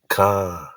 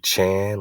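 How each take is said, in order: First: The word begins with a hard k sound. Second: The word begins with a soft ch sound. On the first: The speaker calls it right. "we know it's a hard K" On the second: The speaker calls it wrong. "They'll put a soft C, ch"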